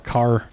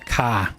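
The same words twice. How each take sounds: First: It is said in a standard, non-Boston accent. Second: It is said in a Boston Southie accent.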